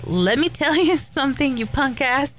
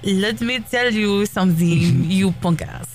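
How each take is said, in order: First: It is said in the speaker's normal accent. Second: It is said in a put-on Russian accent. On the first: "not like Joanna and more like Mickey Rourke" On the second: "with a Russian accent"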